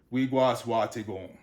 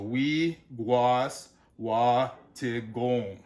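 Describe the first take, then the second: First: Said in the usual way. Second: WIGUASWATAGONG very slowly, syllable by syllable; very slow Wiguaswatagong, each long vowel held; sounded out, long vowels. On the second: Shown as a demonstration. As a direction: break Wiguaswatagong into wi, guas, wa, ta, gong. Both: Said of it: "a lot of double vowel examples".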